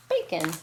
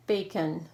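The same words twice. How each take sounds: First: "Bacon" said quicker, as one word; brisk, joined-up "Bacon". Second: Bacon said a little slowly, in two parts; "bacon" with its syllables slightly apart; drawn-out word. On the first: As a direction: run the syllables of "Bacon" together. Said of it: "it's just one word". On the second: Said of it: "should have had that closer". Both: Shown as a demonstration.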